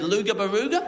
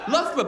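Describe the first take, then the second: First: The name is said with hard g sounds throughout. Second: The name is said with its usual local pronunciation. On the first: The speaker calls it wrong. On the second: The speaker calls it right.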